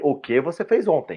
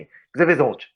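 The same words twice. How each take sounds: First: "O que você fez ontem" with each word sounded in full; careful full pronunciation. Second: "O que você fez ontem" mashed into "que-cê-fez-ontch"; one run-together blurt of casual Portuguese; slurred casual contraction. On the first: Guest decodes the slurred phrase for listeners, careful enunciation. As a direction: spell out the meaning word by word. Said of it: "eu quero dizer o quê?". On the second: Guest shows speech that sounds like cursing, slurred contraction. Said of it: "Parece uma, você tá xingando alguém". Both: Shown as a demonstration.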